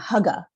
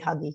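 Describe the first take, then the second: First: The word ends in an 'uh' sound. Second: The word ends in an 'ee' sound. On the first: This is the proper Danish pronunciation. "I think the proper way of saying it" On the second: This is an easier, anglicized pronunciation. "I always say huggy because it's, it's easier"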